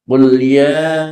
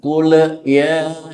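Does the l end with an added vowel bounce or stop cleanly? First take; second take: clean; bounce. First: The l stops cleanly with no added vowel. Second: The l is followed by an extra bouncing vowel. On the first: The speaker calls it right. "Bacalah tanpa pantulan qalqalah" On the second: The speaker calls it wrong. "Jangan sampai terdengar bacaan kula ya, jangan pakai le"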